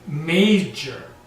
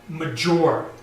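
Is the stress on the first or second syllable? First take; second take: first; second. First: The stress is on the first syllable. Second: The stress is on the second syllable. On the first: The speaker calls it right. "The force is on the first sound" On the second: The speaker calls it wrong. "not major"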